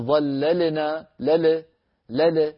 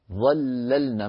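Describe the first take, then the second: First: ظللنا with the lam bounced, لل; wrong shaky lam. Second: ظللنا with the lam held still; firm lam. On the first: Teacher demonstrating the wrong lam. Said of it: "ما نقول". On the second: Teacher showing correct ظللنا. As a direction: keep the lam in ظللنا steady. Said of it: "بين كلمة ظللنا". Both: Shown as a demonstration.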